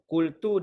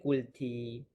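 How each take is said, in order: First: The word ends with a u vowel. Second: The word ends with an i vowel. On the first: The speaker calls it right. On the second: The speaker calls it wrong.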